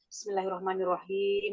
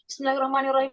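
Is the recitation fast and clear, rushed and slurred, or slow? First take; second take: fast, clear; rushed, slurred. First: It is recited quickly but clearly. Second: It is recited quickly and sloppily. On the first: The recitation is still controlled. The speaker calls it right. "Lah kalau tergesa-gesa" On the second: The recitation has lost control. The speaker calls it wrong. "Enggak gini"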